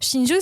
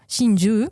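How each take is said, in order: First: The final vowel is short. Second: The final vowel is long. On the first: It means pearl. "ça veut dire perle" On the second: It means a lovers' double suicide. "si tu rajoutes un petit, euh, une voyelle longue"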